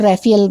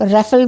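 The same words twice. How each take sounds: First: राफेल said as "Re-phi-el", three syllables with an aspirated ph; Rephiel pronunciation. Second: राफेल said as "Refel", two syllables, short e with a plain f; Refel pronunciation. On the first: Teacher giving the second way to say राफेल, as "Rephiel". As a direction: stretch राफेल into "Re-phi-el", ph breathed out. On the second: Teacher giving the first way to say राफेल, as "Refel". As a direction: say राफेल as "REF-el", clipped to two beats. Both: Shown as a demonstration. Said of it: "दोनों ही pronunciation ठीक है".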